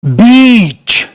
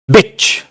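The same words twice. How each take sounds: First: "बीच" with a very drawn-out ee; long sound. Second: "बिच" with a short, quick i; short sound. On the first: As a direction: stretch the vowel in "बीच" slowly. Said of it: "sound long है।". ("बीच" को खूब खींचकर, लंबी ई से) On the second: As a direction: cut the vowel in "बिच" short. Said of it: "long और short का ये फर्क है।". ("बिच" में छोटी इ, बिना खींचे) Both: Shown as a demonstration.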